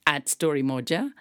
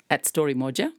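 Both takes have the same delivery.

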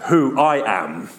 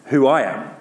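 First: Slow attempt at a big voice; slow would-be booming God voice; big deep voice. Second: Said in the usual way. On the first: Shown as a demonstration. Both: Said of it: "wish I could do a big, deep voice".

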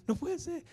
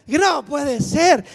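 First: Said in the usual way. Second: Loud, slow wail of disbelief; panicked shout. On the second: Retold or imitated. Seeing nine wrong answers, a panicked loud wail. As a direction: stretch it out in loud despair.

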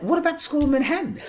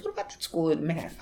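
First: Much higher, louder and fast repeat; father repeating his question more insistently; father insisting. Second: A fast, higher father's query; quick pointed question as Dad; father prodding son about the Manhattan school; father asking. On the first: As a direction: press the question hard as Dad. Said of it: "He said". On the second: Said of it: "He goes". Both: Retold or imitated.

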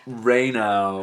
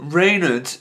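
First: "Reynolds" said as ray-NOW, no L or final S; posh corrected pronunciation. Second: Said in the usual way. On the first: Shown as a demonstration. Host correcting last podcast, "Reynolds" pronounced poshly as "ray-now". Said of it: "is actually pronounced Reynolds". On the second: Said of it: "is actually pronounced".

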